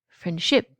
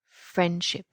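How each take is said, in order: First: The stress is on the second syllable. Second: The stress is on the first syllable. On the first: The speaker calls it wrong. "if I put the stress on the second syllable" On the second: The speaker calls it right. "the stress is on the first syllable"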